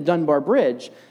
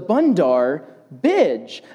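First: The words sound like Dunbar Bridge. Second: The words sound like Bundar Bidge. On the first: The speaker calls it right. "I wanted to go see the Dunbar Bridge" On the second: The speaker calls it wrong. "But instead, I would say"

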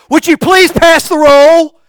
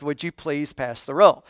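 First: The request is said in an arrogant, haughty tone. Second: The request is said in a humble, polite tone. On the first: The speaker is saving face and avoiding humility. The speaker calls it wrong. "to save face and not to be humble but to be arrogant" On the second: The speaker admits needing to be served. The speaker calls it right. "You're humbling yourself"

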